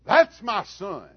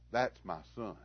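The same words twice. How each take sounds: First: Loud, high, stretched-out proud yell; proud holler. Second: Quiet pride. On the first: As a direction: shout it from the bleachers at a home run. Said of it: "I'd holler". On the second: Father quietly proud of son. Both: Retold or imitated.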